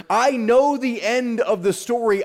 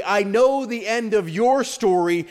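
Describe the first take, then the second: First: "know" lifted as the main word; stress on KNOW. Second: Slower, with "your" as the strongest word; slow down and lean on "your"; stress on YOUR. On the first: Preacher voices God's assurance, stress on "know". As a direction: lean on "know", let "story" fall. Same line, stress then shifted. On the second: Preacher makes God's promise personal to listeners, stress on "your". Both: Real, not acted.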